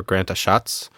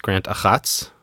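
First: Achatz with a soft "sh" in the middle; SH pronunciation. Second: Achatz with a throaty "kh" in the middle; throaty CH pronunciation. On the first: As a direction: say Achatz as "a-SHATS". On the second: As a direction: say Achatz as "a-KHATS", throat-scraped CH. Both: Shown as a demonstration. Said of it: "I think it's pronounced".

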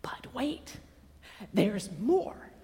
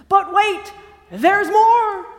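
First: Very soft, drawing them in; hushed teaser. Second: High, loud build-up to "more"; excited pitchman. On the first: Preacher teasing the congregation with more to come, hushed. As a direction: hold it back, almost secretive. Hushed repeat of the earlier line. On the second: Preacher teasing the congregation with more good news, excited pitchman. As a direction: sell it big like a TV pitch. Infomercial line, later repeated hushed. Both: Acted.

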